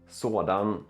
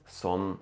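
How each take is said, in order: First: The word is said in its full form. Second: The word is said in a shortened form.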